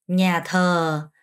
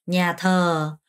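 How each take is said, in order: Both takes have the same delivery.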